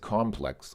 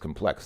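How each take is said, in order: First: The stress is on the first syllable. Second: The stress is on the second syllable. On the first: It describes something as complicated. "you're emphasizing the first syllable" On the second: It names a thing or place. "if it is used as a noun, then it becomes complex"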